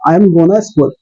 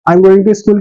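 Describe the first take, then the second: First: The words 'going to' are reduced to 'gonna'. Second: The words 'going to' are said in full. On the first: "क्या बोल सकते हैं" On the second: "की जगह"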